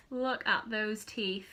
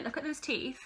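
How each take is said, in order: First: "Look at those teeth" slowed right down, word by word; slow emphasis. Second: Said in the usual way. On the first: Real, not acted. Mocking her own teenage photo to viewers, slow emphasis.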